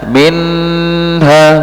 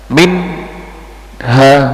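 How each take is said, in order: First: The n sound is held too long. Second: A short pause separates the n and h. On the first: "memanjangkan suara nun sukun atau tanwin lebih dari kadarnya" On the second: "memberikan jeda antara nun sakinah atau tanwin dengan huruf berikutnya"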